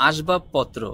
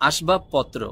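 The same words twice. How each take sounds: No difference in how they are said.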